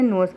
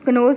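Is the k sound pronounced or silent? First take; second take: silent; pronounced. First: The k sound is silent. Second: The k sound is pronounced. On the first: The speaker calls it right. "नोज पढ़े हैं" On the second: The speaker calls it wrong. "कनोज नहीं हम पढ़े"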